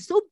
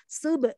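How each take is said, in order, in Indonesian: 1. b tidak memiliki pantulan kecil itu. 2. b dilepas dengan sedikit pantulan. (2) "enggak gitu tapi sub"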